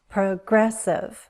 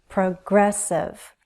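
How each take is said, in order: Both takes have the same delivery.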